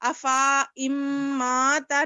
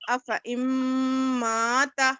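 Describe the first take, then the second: First: The marked alif is read as a long vowel. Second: The marked alif is skipped and the vowel stays short. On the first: The speaker calls it wrong. "अफा इम्माता नहीं बोलेंगे" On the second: The speaker calls it right. "बल्कि अफा इम्माता"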